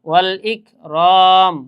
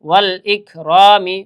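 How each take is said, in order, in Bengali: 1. শব্দটি খালি 'm' ধ্বনি দিয়ে শেষ হয়। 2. শব্দটি 'i' স্বরধ্বনি দিয়ে শেষ হয়। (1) "ওয়াকফ করার সময়" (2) "মিম জের মি"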